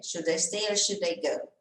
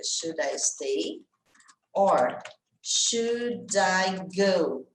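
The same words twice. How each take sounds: First: Whole question linked without pauses; words run together. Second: Very slow, each word stretched; slow demo of the lyric, pausing before "or"; drawn-out song refrain. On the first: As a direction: say the refrain in one connected go. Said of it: "A hora que junta tudo". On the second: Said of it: "ela tem no refrão lá, ela fica". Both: Shown as a demonstration.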